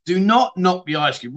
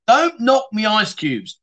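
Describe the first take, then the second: First: "Do not knock me ice cube" with "not" split off and punched; stress on NOT. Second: "don't knock me ice cubes" said slowly with weight on "don't"; slow mock warning. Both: Shown as a demonstration.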